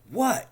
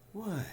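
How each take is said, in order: First: It sounds sharp and angry. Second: It sounds warm and friendly. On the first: The speaker resents being called upon. "Angry for being called upon" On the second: The speaker is happy and receptive. "Non-threatening, friendly, welcoming"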